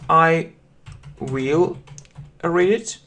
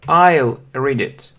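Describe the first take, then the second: First: 'I will' is said as two full words. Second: 'I will' is shortened to one syllable. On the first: "So you can say I will read it" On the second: "we mostly use short forms"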